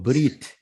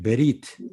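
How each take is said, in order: First: The B and R run together without a vowel. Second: A vowel is heard between the B and R. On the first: This is the usual modern pronunciation. "현대 히브리에서는 브리트라고 주로 이제 발음을 합니다" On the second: This is the older classical pronunciation. "엄밀하게 얘기하면 베리트가 맞다"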